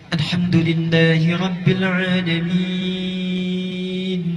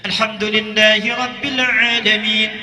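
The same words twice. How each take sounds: First: It is recited slowly with long drawn-out vowels. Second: It is recited quickly with short vowel lengths. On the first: Suited to night prayer with deep reflection. "tiwal, yang paling panjang" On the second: Suited to long congregational voluntary prayers. "itu disebut dengan qiraah hadr, cepat"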